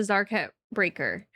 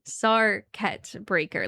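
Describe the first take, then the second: First: The name does not begin like 'circuit'. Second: The name begins like the word 'circuit'. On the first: The speaker calls it wrong. "We just don't know how to read" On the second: The speaker calls it right. "like circuit breaker"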